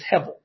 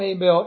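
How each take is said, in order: First: The name has its Hebrew pronunciation. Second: The name has its usual English pronunciation. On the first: "but in the Hebrew his name is Hevel" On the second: "we call him Abel in the English"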